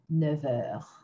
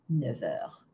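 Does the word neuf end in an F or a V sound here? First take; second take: V; V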